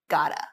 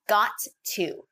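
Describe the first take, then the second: First: The words are reduced to 'gotta'. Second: The words are said in full as 'got to'.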